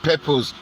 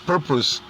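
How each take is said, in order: First: The first syllable is said with a 'pe' sound. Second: The first syllable is said with a 'pur' sound. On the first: The speaker calls it wrong. "It's not purpose, ... It's not pe pe purpose" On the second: The speaker calls it right. "it's purpose"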